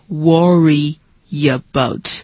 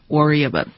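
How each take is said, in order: First: The words are said slowly with the link drawn out. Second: The words are run together quickly in one link. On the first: The speaker calls it wrong. "再慢一点的话是 worry about，但是不要这么说" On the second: The speaker calls it right. "合起来的话就是 worry about"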